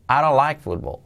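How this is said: It is spoken with a native English accent. The speaker calls it right. "en la vida real sería"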